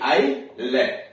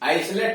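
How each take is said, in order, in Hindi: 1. l से पहले s की ध्वनि सुनाई नहीं देती। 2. l से पहले s की ध्वनि सुनाई देती है। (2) "आइसलेट नहीं"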